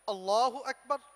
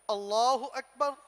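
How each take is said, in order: Both takes have the same delivery.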